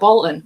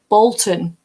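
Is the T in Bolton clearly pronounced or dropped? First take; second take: dropped; clearly pronounced. First: The T in the middle is dropped. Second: The T in the middle is clearly pronounced. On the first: "I don't even enunciate my T's properly half the time" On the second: "And he's like"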